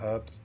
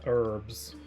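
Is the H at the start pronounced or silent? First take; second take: pronounced; silent. First: The word starts with a pronounced H. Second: The word starts with a silent H.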